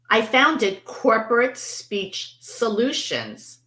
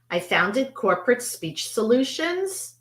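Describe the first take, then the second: First: The voice falls at the end. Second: The voice rises at the end. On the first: It makes a confident statement. The speaker calls it right. "Falling intonation, making a confident statement" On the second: It sounds like a question. The speaker calls it wrong. "Am I now asking a question"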